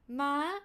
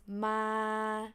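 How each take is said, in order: First: The pitch holds mid, then jumps up high. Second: The pitch stays level at a low height. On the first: "starts from mid pitch, straight, and then suddenly increase to high" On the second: "low pitch"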